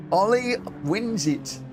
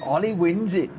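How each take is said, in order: First: High, slow stretched call of "Ollie"; drawn-out finish call. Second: High, loud shout of the winner; excited finish call. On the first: Streamer repeating the winner, slow, drawn-out. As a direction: savour the win as you call it. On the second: Streamer calling the race finish, excited shout. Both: Real, not acted.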